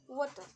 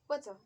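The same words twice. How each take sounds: First: The T is a hard, clearly released stop. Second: The T is soft and smooth, almost flapped. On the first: "hard T sound" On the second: "smooth T sound"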